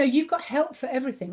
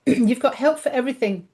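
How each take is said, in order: First: A tired voice starting to go, dropping softer; voice giving out. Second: Said in the usual way. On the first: Real, not acted. Guest tiring while promoting her dragons, voice going. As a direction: let the voice fade and falter on the line. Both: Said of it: "Oh, my voice is going".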